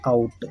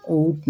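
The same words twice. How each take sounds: First: "आउट" opening on 'aa', gliding to 'oo'; correct out. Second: "ऊट" with one long rounded vowel, no 'aa'; misread out. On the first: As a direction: say "आउट" as English 'out'. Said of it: "इसको क्या पढ़ते हैं". ("आउट" में 'आ' से शुरू करें) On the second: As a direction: read 'out' wrongly as "ऊट". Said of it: "ऊट नहीं पढ़ते". ("ऊट", बिना 'आ' की ध्वनि के) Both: Shown as a demonstration.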